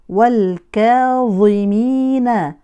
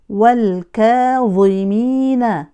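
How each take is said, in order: Both takes have the same delivery.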